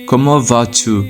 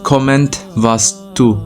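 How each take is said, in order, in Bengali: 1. এটি নীরব অক্ষর দিয়ে বলা হয়, শেষে কোনো t নেই। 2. এটি বানান অনুযায়ী পড়া হয়, শেষের t উচ্চারণ করা হয়। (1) "পারফেক্ট উচ্চারণ হবে" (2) "এখানে পড়তে গেলে আসে এরকম শব্দ"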